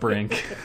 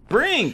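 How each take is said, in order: First: The word is said flatly, without extra energy. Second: The word is exclaimed loudly with excited energy. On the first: The speaker calls it wrong. "I said it wrong" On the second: The speaker calls it right. "There's an exclamation mark there"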